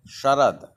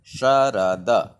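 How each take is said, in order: First: Said in the usual way. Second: "Sharad" broken into slow syllables, sha-ra-da; pronunciation demo. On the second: Shown as a demonstration. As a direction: say "Sharad" slowly, one syllable at a time. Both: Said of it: "And pronunciation Sharad".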